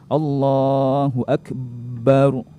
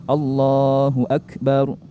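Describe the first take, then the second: First: The b in akbar is doubled and held. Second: The b in akbar is short and single. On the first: The speaker calls it wrong. "Jangan ... Itu keliru" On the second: The speaker calls it right. "Jadi biasa aja"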